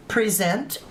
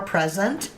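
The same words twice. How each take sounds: First: Present, stressed at the end like the verb; pre-ZENT. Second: Present, stressed at the front like the noun; PREZ-ent. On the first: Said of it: "um, or present". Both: Shown as a demonstration.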